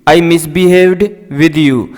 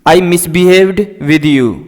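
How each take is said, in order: Both takes have the same delivery.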